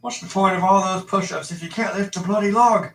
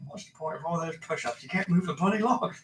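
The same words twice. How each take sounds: First: British Alfred voice, higher; hammed-up Cockney butler; Michael Caine impression. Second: British butler voice through laughter; laughing while doing Alfred; Michael Caine impression, laughing. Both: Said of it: "I can't do Michael Caine".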